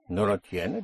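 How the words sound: The voice rises at the end like a question. It asks whether the listener does not have it.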